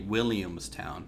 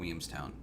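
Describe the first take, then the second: First: The L sounds in the name are clearly pronounced. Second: The L sounds in the name are left out. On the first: This is the official form of the name. "it's actually Williamstown" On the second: This is the lazy form locals use. "we just are too lazy to say the L's"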